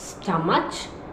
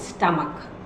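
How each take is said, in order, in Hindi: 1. यह शब्द ch की आवाज़ से खत्म होता है। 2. यह शब्द k की आवाज़ से खत्म होता है। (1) "अगर आप इसे स्टमच बोलते हैं तो ये गलत है" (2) "this is स्टमक, not स्टमच"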